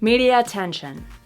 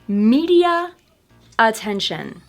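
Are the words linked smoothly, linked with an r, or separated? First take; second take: smoothly; separated. First: The vowel flows into the next word without r. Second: The two words are said apart with a break. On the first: "linking them but not using the intrusive R" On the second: "first with the words separated"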